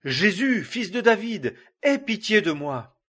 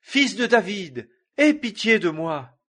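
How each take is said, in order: First: Loud plea, pitched higher; a blind beggar crying out over the crowd. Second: Loud desperate plea, much higher; pushing louder to be heard despite being hushed; crying out harder. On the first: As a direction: call out to him, begging for mercy. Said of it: "Et il cria". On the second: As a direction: shout it over the crowd, begging. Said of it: "il criait d'autant plus fort". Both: A narrator's reading.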